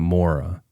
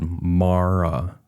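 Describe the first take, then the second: First: The first vowel is a rounded 'or' sound. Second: The first vowel is an open 'ah' sound. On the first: The speaker calls it wrong. "not Mora" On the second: The speaker calls it right. "how to pronounce her sister's name. She said Mara Murray"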